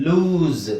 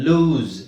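The two takes are said the same way.

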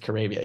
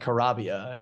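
First: The name rhymes with Arabia. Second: The name does not rhyme with Arabia. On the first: The speaker calls it right. "this is pronounced like Arabia" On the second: The speaker calls it wrong. "It's not Carabia"

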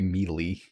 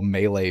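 First: The word is said as "mealy". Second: The word is said as "may-lay".

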